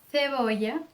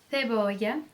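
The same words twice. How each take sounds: The two takes are said the same way.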